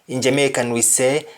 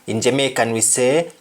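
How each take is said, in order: The two takes are said the same way.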